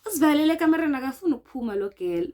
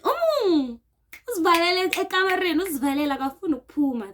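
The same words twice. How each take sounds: First: Rushed, loud retelling of the accusation; mock accusing shout. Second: Raised, fast, high accusing voice; mock accusing shout. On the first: Retelling the housemates' accusation, loud and rushed. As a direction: fire it off quickly and loudly. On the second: Housemates accusing her of hiding, raised fast and high. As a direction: blurt it out like an angry housemate. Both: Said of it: "They saying it in Pedi".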